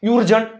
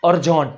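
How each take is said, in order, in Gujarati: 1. શબ્દ 'you' અવાજથી શરૂ થાય છે. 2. શબ્દ 'uh' અવાજથી શરૂ થાય છે. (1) "નથી થતું" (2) "અ"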